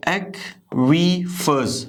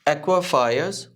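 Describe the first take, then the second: First: Aquifers broken into ek-wi-fus, very slow, higher; "ekwi" sound. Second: Aquifers as "ekwa-faayas"; "ekwa" sound. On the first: Teacher correcting for learners, aquifers as "ek-wi-fus". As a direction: stretch aquifers syllable by syllable, "ekwi". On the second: Teacher's first reading for learners, "ekwa-faayas". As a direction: open aquifers into "ekwa-faa-yas", R dropped. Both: Shown as a demonstration. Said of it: "ये एक्वी की sound आएगी".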